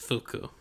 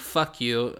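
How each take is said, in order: First: The name sounds like 'foo-koo' with short vowels. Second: The name sounds like the phrase 'fuck you'. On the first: The speaker calls it right. "It's Fuku" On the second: The speaker calls it wrong. "It's not how you say it, but it looks like it's how you say it"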